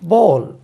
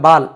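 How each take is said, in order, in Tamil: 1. உயிரெழுத்து வட்டமான 'aw' ஒலி. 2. உயிரெழுத்து திறந்த, வட்டமில்லாத 'ah' ஒலி. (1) "போல் இப்படி வரும் சவுண்ட்" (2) "நம்ம சொல்கிறது பாருங்கள்"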